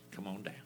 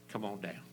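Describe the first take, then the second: No difference in how they are said.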